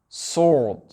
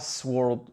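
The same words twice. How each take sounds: First: The W sound is left out. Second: A W sound is pronounced after the S. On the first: The speaker calls it right. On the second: The speaker calls it wrong.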